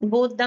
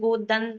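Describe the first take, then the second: First: The word ends with an m sound. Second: The word ends with an n sound. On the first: The speaker calls it wrong. "गोदम नहीं है वैसे" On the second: The speaker calls it right. "गोदन है"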